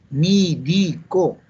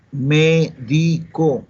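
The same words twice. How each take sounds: First: "Médico" as "mí-di-co", very slow and higher; Andean e-to-i. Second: "Médico" very slowly, syllable by syllable, clear e; drawn-out teaching "Médico" with a true e; careful correct pronunciation. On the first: Acted. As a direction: stretch out "Médico" syllable by syllable with i for e. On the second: Shown as a demonstration. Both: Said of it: "le cambió la E por la I".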